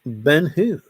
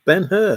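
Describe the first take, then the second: First: Ben who, said like the question word; "Ben who" with a plain who at the end; mispronounced name. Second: Ben Hur, with a clear Hur; "Ben Hur" said louder and higher, hur clearly sounded; correct name. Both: Shown as a demonstration. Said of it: "not Ben who".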